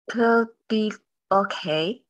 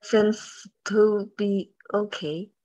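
First: "to" reduced to a quick "tə" sound; weak form "to" as "tə" in "to be okay". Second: "to" said as a full clear "too"; don't reduce "to", say it fully as "too"; "to" unreduced, vowel kept full. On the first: Shown as a demonstration. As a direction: swallow the vowel of "to", just "tə". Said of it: "没有弱读". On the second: Real, not acted. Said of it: "不是to，是te".

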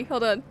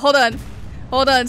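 First: Said in the usual way. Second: Loud. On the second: Real, not acted. Calling out to teammate.

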